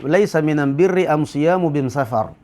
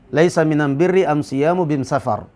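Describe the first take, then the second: First: The articles are said with an 'm' sound. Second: The articles are said with an 'm' sound.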